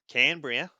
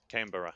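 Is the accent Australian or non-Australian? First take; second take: Australian; non-Australian. First: It is said in an Australian accent. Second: It is said in a non-Australian accent.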